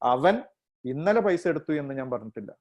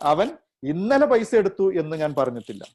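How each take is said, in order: First: The stress falls on the word അവൻ. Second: The stress falls on the word ഇന്നലെ. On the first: "ഒരർത്ഥം" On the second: "ഇന്നലെ stress ചെയ്യുമ്പോഴുള്ള"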